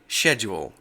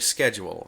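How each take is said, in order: First: It is said the British way. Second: It is said the American way. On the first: "in England, they say" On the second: "In America, we say"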